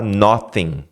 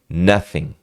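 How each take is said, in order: First: The first vowel is an open 'o' sound. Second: The first vowel is a short 'uh' sound. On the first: The speaker calls it wrong. "Cuidado para não falar nothing. Não é exatamente nó" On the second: The speaker calls it right. "é n"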